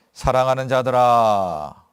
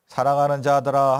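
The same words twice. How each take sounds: First: 사랑하는 stretched out slow and loud, falling at the end; drawn-out emphasis. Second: 사랑하는 자들아 said again, loud but at normal pace, stressing 자들아; quicker emphatic repeat. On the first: Pastor reading the verse aloud to the congregation, slow and loud. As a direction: linger on 사랑하는 like a tender call. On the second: Pastor repeating the phrase to the congregation, quicker. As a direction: restate it briskly with a press on 자들아. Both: Acted.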